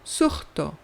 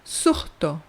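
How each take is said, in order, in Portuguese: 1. O s antes do t soa como um h. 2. O s antes do t soa como um h.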